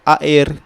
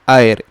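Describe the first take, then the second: First: The vowels are split into two syllables. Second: The vowels glide together in one syllable. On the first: The speaker calls it wrong. "dia bukan air" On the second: The speaker calls it right. "satu bunyi saja"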